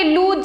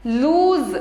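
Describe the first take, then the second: First: "लूज" ending in a hard j, like "looj"; wrong J ending. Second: "लूज" ending in a buzzed z, like "looz". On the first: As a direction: close "लूज" on j instead of z. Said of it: "ऐसे नहीं बोलेंगे". ("लूज" के अंत में ज, ज़ नहीं) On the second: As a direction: close "लूज" on z, not j. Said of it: "ऐसे ही ज". ("लूज" के अंत में ज़, ज नहीं) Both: Shown as a demonstration.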